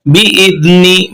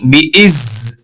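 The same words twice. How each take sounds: First: "बिइज़्नि" said slowly, not cut to "इज़"; correct reading. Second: "बिइज़" clipped short as the wrong way; wrong reading. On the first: Teacher showing students the correct reading, slowly. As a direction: read "बिइज़्नि" whole and slow. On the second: Teacher showing students the wrong reading, clipped short. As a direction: cut off at "बिइज़". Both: Shown as a demonstration. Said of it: "इज़ नहीं करेंगे".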